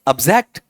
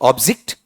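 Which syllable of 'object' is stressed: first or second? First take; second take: second; first. First: The stress is on the second syllable. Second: The stress is on the first syllable. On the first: It is used as a verb. "Verb में" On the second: It is used as a noun. "Noun में क्या है"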